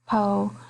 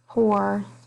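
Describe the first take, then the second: First: The final R sound is dropped. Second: The final R sound is pronounced. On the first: "soften the R sounds" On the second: "instead of"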